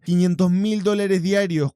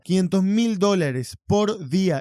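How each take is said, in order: First: Said in the usual way. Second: Slow, weighty "Quinientos mil dólares por día"; emphatic repetition. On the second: Real, not acted. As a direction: spell out "por día" slowly, word by word. Repite la cifra para recalcarla. ("por día" recalcado, lento y pausado)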